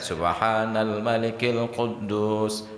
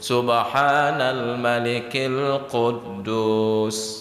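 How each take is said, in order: First: It is said at an ordinary volume. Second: It is said in a raised, louder voice. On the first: "Satu, biasa saja" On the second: "pada kali yang ketiga ditinggikan suaranya"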